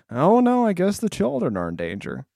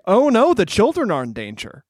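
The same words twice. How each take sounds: First: Gene Wilder unconcerned. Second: Mock alarm, raised pitch; imitated worried outcry; Wonka alarmed. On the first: Retold or imitated. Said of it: "Gene Wilder's weirdly like". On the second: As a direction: act out concern for the children. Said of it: "Wonka is always like".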